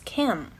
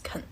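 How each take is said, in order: First: The final sound shifts toward the next sound. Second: The word is said weakly with a reduced vowel. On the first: "it is affected by the sound that follows, and it becomes can" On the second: "And more often it becomes can"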